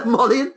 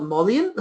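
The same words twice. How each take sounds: First: Amused at his own slip; chuckling correction; laughing at himself. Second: Said in the usual way. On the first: Real, not acted. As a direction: laugh into the word, rising.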